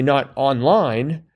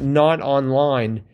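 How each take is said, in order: First: The word online is emphasized. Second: The word online carries no special emphasis. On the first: It means the opposite of online, in real life. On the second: Someone is disconnected from the internet.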